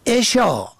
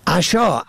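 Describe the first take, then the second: First: عشا said eshâ, short e first; عشا pronounced eshâ; kasra on first. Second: عشا said ashâ, short a first; عشا pronounced ashâ; fatha on first. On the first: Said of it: "به کسر اول". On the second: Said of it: "به فتح اول". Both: Shown as a demonstration.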